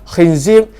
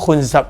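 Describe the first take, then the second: First: The vowels are i, then i. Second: The vowels are u, then a. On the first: "kha dengan zai baris bawah" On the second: "dengan dhammah"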